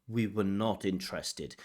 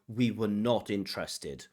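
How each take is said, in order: No difference in how they are said.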